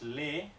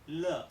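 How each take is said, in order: First: The vowel is a front Spanish-style e. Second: The vowel is a lower, central neutral vowel. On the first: The speaker calls it wrong. "Y esta no es le" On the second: The speaker calls it right. "es l"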